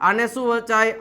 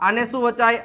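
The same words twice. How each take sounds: The two takes are said the same way.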